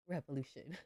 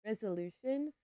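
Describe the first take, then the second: First: Says "Revolution" with a v, wrong word; "Revolution" slipped in for resolution. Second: "Resolutions" with a clear z sound, laughing; corrected word. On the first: Gamer fumbles the word for new year plans, saying "Revolution". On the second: Gamer corrects herself on new year plans, "Resolutions". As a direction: laughs and lands "Resolutions" right. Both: Real, not acted.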